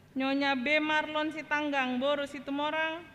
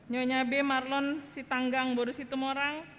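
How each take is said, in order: Both takes have the same delivery.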